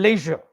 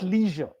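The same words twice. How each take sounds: First: It sounds like 'lay' followed by 'sure'. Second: It does not sound like 'lay' plus 'sure'. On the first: The speaker calls it right. "Leisure is L A Y S H U R E ... you must say leisure" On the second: The speaker calls it wrong. "not leisure"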